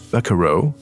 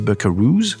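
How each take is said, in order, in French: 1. Le mot se termine par une voyelle. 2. Le mot se termine par un son s. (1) "C'est un mot qui se prononce buckaroo" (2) "il y a beaucoup de gens qui disent buckaroos, euh, mais en réalité non"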